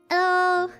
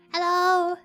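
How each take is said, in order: Both takes have the same delivery.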